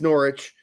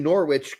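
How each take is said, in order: First: The W in the middle is silent. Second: The W in the middle is pronounced. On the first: It is the way locals say it. The speaker calls it right. "but it is Norwich. They don't pronounce the W anymore" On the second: It is said as a joke. The speaker calls it wrong. "I'll say Norwich because our regulars know I'm kidding around"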